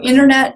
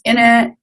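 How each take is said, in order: First: Every syllable of the word is pronounced. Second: Several sounds in the middle are dropped.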